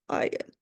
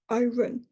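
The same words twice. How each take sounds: First: The R sound is left silent. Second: The R sound is clearly pronounced. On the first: The speaker calls it right. "what we call a silent R" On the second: The speaker calls it wrong. "because you're pronouncing the R"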